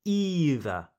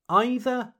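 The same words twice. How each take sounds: First: Either starting with EE, falling; EE-ther. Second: Either starting like the word eye; EYE-ther. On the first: Teacher repeats second option, either as EE-ther. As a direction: say either with a long E. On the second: Teacher repeats first option, either as EYE-ther. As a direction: say either with a long I. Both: Shown as a demonstration. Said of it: "Both pronunciations are correct".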